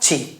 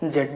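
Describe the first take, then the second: First: The letter is said as zee. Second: The letter is said as zed. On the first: "American में बोलते हैं" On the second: "British pronunciation अगर करेंगे accent में तो वहाँ जेड को जेड बोलते हैं"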